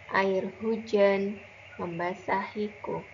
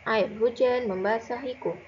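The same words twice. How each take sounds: First: It is read expressively, with lively varied intonation. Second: It is read plainly, with ordinary flat intonation. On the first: It is recited as a poem. "Ustazah akan contohkan bagaimana cara membaca puisi" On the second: It is read like an ordinary story. "Kalau membaca cerita seperti biasanya, begini bunyinya"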